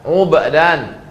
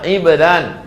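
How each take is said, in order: First: The first vowel is u. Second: The first vowel is i. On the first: "ainnya baris dhammah" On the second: "baris kasrah"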